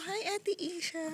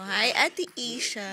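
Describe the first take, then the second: First: Put-on soft, higher voice for the baby; speaking for baby. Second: Cheerful greeting. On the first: Parent coaching baby to greet, soft baby-talk. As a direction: prompt the baby with a gentle, high hello. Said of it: "Sabi mo". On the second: Pretend. Parent greeting big sister for baby, cheerful. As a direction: call hello for the baby.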